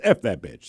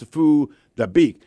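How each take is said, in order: First: It sounds like an English swear phrase. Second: It sounds like a Vietnamese name. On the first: The speaker calls it wrong. "you're pronouncing it wrong" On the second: The speaker calls it right. "It's Fu Dabeek"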